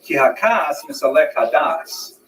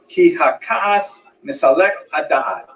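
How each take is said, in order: First: It is said in Ashkenazi Hebrew pronunciation. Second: It is said in Modern Hebrew pronunciation. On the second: "which I will quote in modern Hebrew"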